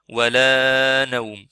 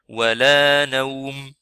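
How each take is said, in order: First: The long vowel is stretched out far too long. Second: The long vowel is held at a normal length. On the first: The speaker calls it wrong. "On fait pas ولا نوم, ça c'est trop" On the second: The speaker calls it right. "comme ça c'est clair"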